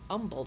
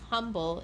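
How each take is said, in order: First: The word begins without an H sound. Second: The word begins with an H sound. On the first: The speaker calls it right. "Don't pronounce the H" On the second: The speaker calls it wrong. "It's not humble"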